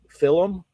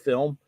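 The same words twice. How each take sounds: First: Film is said with a Scottish-style pronunciation. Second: Film is said with a standard pronunciation. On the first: This is the habit picked up from an old teacher. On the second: This is the usual way to say it.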